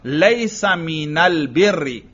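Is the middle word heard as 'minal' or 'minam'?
minal. The article is pronounced with an l sound. This is the common Arabic form. "आम अरब का लाम हो तो यूं हो"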